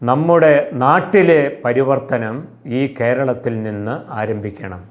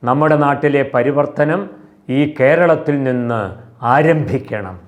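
First: The emphasis falls on the word നമ്മുടെ. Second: The emphasis falls on the word ആരംഭിക്കണം.

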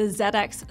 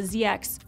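First: The letter Z is said the British way. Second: The letter Z is said the American way. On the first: The speaker calls it right. "we're British, so I should say it properly" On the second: The speaker calls it wrong. "excuse me"

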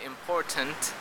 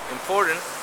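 First: The T after the R is a clear T. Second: The T after the R is a flap. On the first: The speaker calls it wrong. "You don't say important" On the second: The speaker calls it right. "but you say important"

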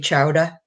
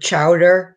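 First: The final R sound is dropped. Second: The final R sound is pronounced. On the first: "we don't pronounce our R's at the end of words" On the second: "instead of chowder"

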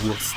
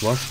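First: The word is said with an s sound. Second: The word is said with an sh sound.

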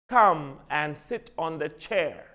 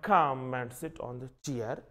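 First: The last word has the vowel of 'chair'. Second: The last word has the vowel of 'cheer'. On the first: The speaker calls it right. "Be correct about the pronunciation of the word chair, not cheer" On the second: The speaker calls it wrong.

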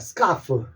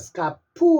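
First: The word ends with an f sound. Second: The word ends with a p sound. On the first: The speaker calls it right. "요 F를 F 소리, F 하십시오" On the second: The speaker calls it wrong. "스카프 하지 말고"

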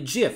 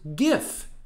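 First: It begins with a soft J sound. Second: It begins with a hard G sound. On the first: The speaker calls it wrong. "if we pronounce it with the other sound, then we end up confusing it with this brand of peanut butter" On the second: The speaker calls it right. "pronounced GIF, like the word gift, not like the word giraffe"

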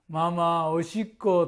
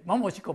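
First: It is spoken at a normal pace. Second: It is spoken even more quickly.

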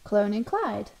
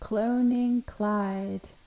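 First: It is said with more life and energy. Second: It is said flatly, like a zombie.

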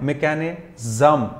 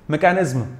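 First: The ending is pronounced like 'zum'. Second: The ending is pronounced like 'izm'. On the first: The speaker calls it right. "उनको जम पढ़ा जाता है" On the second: The speaker calls it wrong. "इज्म नहीं पढ़ते, मैकेनिज्म ना पढ़ें"

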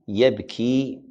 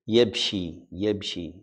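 First: The middle consonant is a plain k sound. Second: The middle consonant is an sh-like sound. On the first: "Yabki is not like sheen" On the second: "the kaf they pronounce it sheen"

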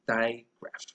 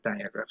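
First: The word has no middle vowel, two syllables. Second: The word has an extra middle vowel, three syllables. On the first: The speaker calls it right. "but it's actually digraph" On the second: The speaker calls it wrong. "You don't call it digraph"

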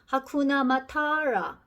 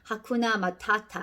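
First: The last t is flapped, sounding like r. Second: The last t is a crisp, clear t. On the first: "트 발음을 이렇게 R처럼 굴려서" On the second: "본래는"

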